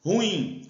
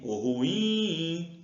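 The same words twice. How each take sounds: First: Said in the usual way. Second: "ruim" with a long held "im"; calling the word. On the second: Shown as a demonstration. Teacher calls the word to show it is oxytone, drawn-out "im" in "ruim". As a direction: call out "ruim", stretching the last syllable.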